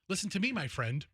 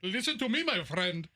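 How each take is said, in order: First: It is said in the speaker's ordinary accent. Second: It is said in a put-on foreign accent. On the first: The greeting feels ordinary and flat. The speaker calls it wrong. "That doesn't hit" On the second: The greeting feels warmer and funnier. The speaker calls it right. "It's like, haha"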